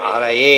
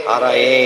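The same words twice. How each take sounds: No difference in how they are said.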